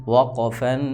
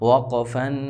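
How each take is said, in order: Both takes have the same delivery.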